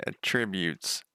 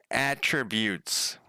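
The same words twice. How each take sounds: First: "Attributes" with the stress on TRIB; "Attributes" stressed like the verb, on the second syllable. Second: "Attributes" very slowly, with the stress on AT; a deliberate, slow "Attributes", first syllable stressed. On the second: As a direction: say "Attributes" as AT-trib-yoots, drawn out. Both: Shown as a demonstration. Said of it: "I never pronounce it, anything right".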